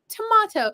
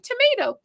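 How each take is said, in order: First: It is said with a British pronunciation. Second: It is said with an American pronunciation. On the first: "in England, they say tomato" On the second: "in America, we say tomato"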